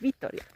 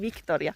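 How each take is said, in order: First: No k sound comes before the t. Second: A k sound comes before the t. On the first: The speaker calls it right. "vaan Vittoria" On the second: The speaker calls it wrong. "ei Victoria"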